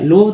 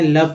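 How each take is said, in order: First: The vowel sounds like 'oh'. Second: The vowel sounds like 'uh'. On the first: The speaker calls it wrong. "लोभ तो नहीं पढ़ते हैं" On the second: The speaker calls it right. "लव पढ़ते हैं, यानी कि अ का उच्चारण हुआ है"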